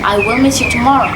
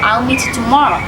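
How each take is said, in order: First: The words 'I will' are said in full. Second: The words 'I will' are contracted to 'I'll'. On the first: "instead of saying I will" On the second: "I can say I'll"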